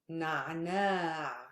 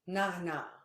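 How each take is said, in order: First: The second vowel is long. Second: The second vowel is short. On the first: This is the formal standard form. "But in Fusha" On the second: This is the everyday spoken form. "In colloquial, we don't say this alif"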